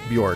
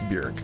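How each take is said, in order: First: The vowel sounds like the one in pork. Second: The vowel sounds like the one in jerk. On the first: The speaker calls it wrong. "not Bjork rhymes with pork" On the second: The speaker calls it right. "it's pronounced Björk. It like rhymes with jerk"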